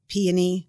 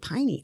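First: The word begins with an 'ee' vowel sound. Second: The word begins with an 'eye' vowel sound. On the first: This is the common way most people say it. "Most people say peony" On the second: This is how some older or Southern speakers say it. "old timers or people that are maybe from the South that will say piney. I don't understand how EO becomes I"

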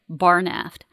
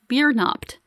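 First: The first syllable sounds like 'bar'. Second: The first syllable sounds like 'beer'. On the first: The speaker calls it wrong. "it's not pronounced the way you're saying it" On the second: The speaker calls it right. "It's pronounced Biernaft"

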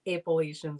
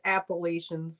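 First: The word is said without the toothy sound. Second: The word is said with a toothy, hissing sound. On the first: The speaker calls it right. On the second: The speaker calls it wrong.

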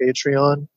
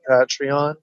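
First: The first syllable sounds like 'patron'. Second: The first syllable does not sound like 'patron'. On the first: The speaker calls it right. "because I think you're a patron, so it's like a Patreon" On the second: The speaker calls it wrong. "It annoys me when I hear people say Patreon"

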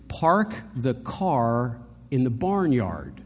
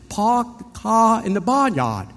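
First: It is said with the R sounds pronounced. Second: It is said in a Boston accent without R sounds.

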